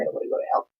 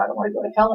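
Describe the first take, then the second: First: Breathy whispered repeat; whispered plea. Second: Said in the usual way. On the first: Retold or imitated. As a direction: whisper it like a scared confession. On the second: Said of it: "And I was all upset".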